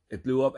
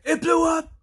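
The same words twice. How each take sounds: First: Said in the usual way. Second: Very high, loud mock yell; excited echo. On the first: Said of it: "He's like". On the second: Henry echoes news of the explosion, imitated as an excited yell. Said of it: "Henry gets excited by what's happening".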